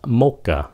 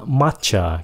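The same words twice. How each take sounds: First: "mocha" said MO-ka, ch as k. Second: "matcha" said MA-cha, ch as in chair. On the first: Teacher contrasting two drinks, mocha with k. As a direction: make the ch of "mocha" a k. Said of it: "coi nó như cái âm K". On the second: Teacher contrasting two drinks, matcha with ch. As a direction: keep a ch sound in "matcha". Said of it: "Cái chữ này là matcha". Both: Shown as a demonstration.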